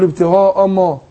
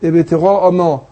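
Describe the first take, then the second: Both takes have the same delivery.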